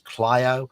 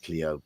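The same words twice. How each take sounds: First: It is pronounced the way Americans say it. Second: It is pronounced like the British car name. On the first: The speaker calls it right. "apparently in America it's known as Clio" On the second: The speaker calls it wrong. "I called it Clio in my review because we have the Renault Clio car over here"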